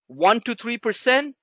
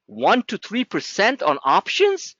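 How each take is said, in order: First: Said in the usual way. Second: Slow, disbelieving, rising on options; incredulous repeat. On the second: Shown as a demonstration. Trader mocks a student's options guess, slow and disbelieving. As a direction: drag it out like the number is absurd. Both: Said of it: "You must be smoking crack".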